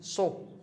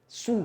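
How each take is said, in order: First: The vowel sounds like 'o'. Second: The vowel sounds like 'u'. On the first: The speaker calls it wrong. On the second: The speaker calls it right.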